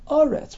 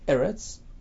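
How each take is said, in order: First: The word begins with an a vowel. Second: The word begins with an e vowel. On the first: The word stands at the end of a statement. "Aretz with a kametz" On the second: The word stands in the middle of a verse. "In the middle, it's Eretz"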